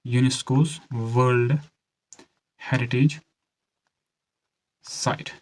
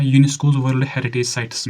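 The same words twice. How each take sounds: First: One chunk at a time, long pauses; measured delivery with gaps between words; slow dictation. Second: Said in the usual way. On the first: Shown as a demonstration. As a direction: dictate slowly for students taking notes. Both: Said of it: "धीरे से बोल रहा हूँ".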